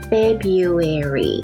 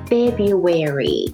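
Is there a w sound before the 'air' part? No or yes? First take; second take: No; Yes. First: It sounds like feb-you-air-ee, with no w. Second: A w sound comes before the air part. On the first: "Feb You Air E Feb とYou はあなたのYou でAir は空気のAir で同じ発音で最後E をつけて" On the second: "このAir の前にちょっとW が入って口がすぼまるから"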